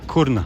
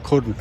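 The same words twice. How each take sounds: First: The name begins with a hard K sound. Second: The name begins with a hard K sound.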